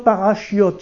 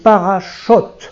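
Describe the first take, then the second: First: A 'y' glide comes before the final 'ot'. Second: No glide comes before the final 'ot'. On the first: The speaker calls it wrong. "on ne dit pas parachiot" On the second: The speaker calls it right. "C'est parachot"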